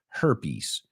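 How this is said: The word is pronounced the English way. "we say her, herpes"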